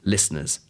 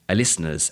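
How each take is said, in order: First: The word begins directly with its consonant. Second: An extra vowel sound comes before the word. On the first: The speaker calls it right. "instead of" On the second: The speaker calls it wrong. "a Spanish speaker might have said"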